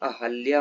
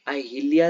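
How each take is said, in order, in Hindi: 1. 'h' ध्वनि के बाद 'i' स्वर नहीं आता। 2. 'h' ध्वनि के बाद 'i' स्वर आता है। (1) "आ हा अधला या" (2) "अहिल्या नहीं"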